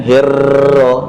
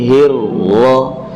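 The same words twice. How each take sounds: First: Hirroh said with a bouncing trilled ro; the bouncy, rolled ro in hirroh; wrong ro. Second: Hirroh with a single held unbounced ro, slow; slow careful hirroh; correct ro. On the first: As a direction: hirroh with a tapped flutter on the r. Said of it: "Jadi bukan hirroh". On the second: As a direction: hold the ro in hirroh steady, no rolling. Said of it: "tapi hirroh". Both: Shown as a demonstration.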